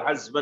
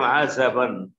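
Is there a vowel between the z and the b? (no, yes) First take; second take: no; yes. First: The z is said with no vowel after it. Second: The z is followed by a short a vowel. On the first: "الذي أحفظه عزبا بالسكون" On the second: "على كل حال بفتحتين هكذا قال"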